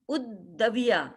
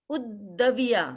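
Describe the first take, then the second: Both takes have the same delivery.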